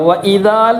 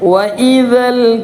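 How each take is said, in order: First: The vowel before the final l is drawn out. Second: The vowel before the final l is kept short. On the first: The speaker calls it wrong. "എന്ന് പറയില്ല" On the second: The speaker calls it right. "സുക്കൂന വന്നാൽ നീട്ടുകയില്ല"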